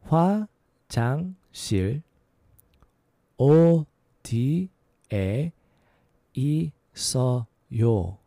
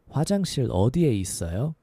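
First: It is said at a slower pace. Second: It is said at a faster pace.

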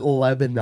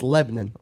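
First: Each syllable is said clearly, as spelled. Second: The name is said in a clipped form. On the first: The speaker calls it wrong. "that's exactly how it's spelled" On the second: The speaker calls it right. "But you see, it's Lebanon"

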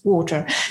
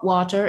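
First: Water is said with an English accent. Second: Water is said with a North American accent. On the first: The speaker calls it right. "He wanted me to sound English" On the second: The speaker calls it wrong. "didn't want me to sound Canadian or American"

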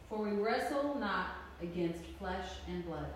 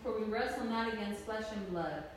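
First: It is read very slowly. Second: It is read at a normal pace.

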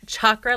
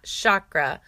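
First: The word begins with a 'ch' sound. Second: The word begins with an 'sh' sound. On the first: The speaker calls it right. "It's chakra like chair" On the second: The speaker calls it wrong. "not chakra like shimmy"

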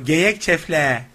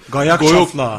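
First: It is said with a thin, narrow mouth. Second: It is said with a fat, wide mouth.

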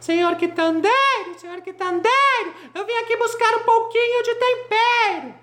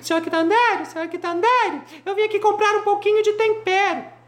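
First: It is shouted somewhat louder than before. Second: It is called out at a moderate shout.

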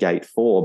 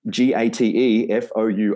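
First: It is said with a native English accent. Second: It is said with a French accent. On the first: The speaker calls it right. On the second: The speaker calls it wrong.

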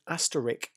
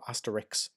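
First: The word ends with an 'sk' sound. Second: The word ends with a 'ks' sound. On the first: The speaker calls it right. "it's actually I-S-K" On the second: The speaker calls it wrong. "Asterix is the comic"

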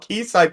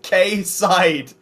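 First: The first syllable sounds like 'key'. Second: The first syllable sounds like 'kay'. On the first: The speaker calls it right. "It's probably still key side" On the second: The speaker calls it wrong. "somehow pronounce it K side"

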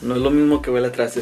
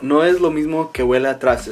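First: It is said at normal speed. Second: It is said slowly.

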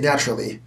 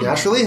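First: The pitch goes down at the end. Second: The pitch goes up at the end. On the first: This is how Americans say it. "Americans go down. So they'll say naturally" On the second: This is how Canadians say it. "Whereas we'll say naturally, like, it kind of goes up"

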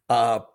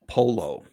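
First: The double L is said the Spanish way. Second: The double L is said the Italian way. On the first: "What is Spanish for chicken?" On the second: "They don't say the L's like they do in Spanish"

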